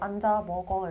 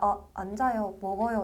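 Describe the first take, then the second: First: It is said firmly, as to a dog. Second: It is said gently and politely.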